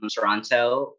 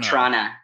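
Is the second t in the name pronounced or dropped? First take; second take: pronounced; dropped. First: The t sounds are clearly pronounced. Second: The word is squeezed, with the second t dropped. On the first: "You just pronounced the T in Toronto" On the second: "Or Trana"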